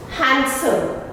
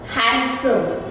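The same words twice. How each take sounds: The two takes are said the same way.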